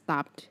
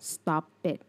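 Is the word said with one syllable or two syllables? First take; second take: one; two. First: The ending is a plain t sound, no extra syllable. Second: The ending is an extra syllable, like stop-it. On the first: The speaker calls it right. "จริงๆแล้วมันไม่ใช่ค่ะมันอ่านว่า" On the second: The speaker calls it wrong. "มักจะได้ยินน้องๆอ่านว่า"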